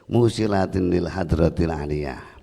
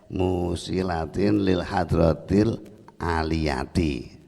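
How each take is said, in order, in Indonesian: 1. Kata terakhir tidak berakhir dengan vokal. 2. Kata terakhir berakhir dengan vokal "-ti" yang ditambahkan. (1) "dibaca sukun atau dibaca mati" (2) "dibaca kasroh"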